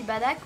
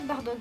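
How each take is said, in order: First: The name is pronounced the Japanese way, as Badak. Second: The name is pronounced the French way, as spelled. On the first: The speaker calls it right. "mais en vrai ça se dit Badak, voilà, en japonais" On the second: The speaker calls it wrong. "je vous dis Bardock parce que ça s'écrit comme ça"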